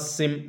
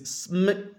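First: A vowel comes between s and m. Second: No vowel comes between s and m. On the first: The speaker calls it wrong. "This is not sim" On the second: The speaker calls it right. "This is sm"

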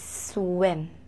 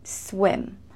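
The two takes are said the same way.

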